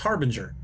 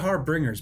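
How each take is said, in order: First: No extra r sound follows the b. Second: An extra r sound follows the b. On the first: The speaker calls it right. "but it's harbinger" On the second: The speaker calls it wrong. "I always add an extra R there"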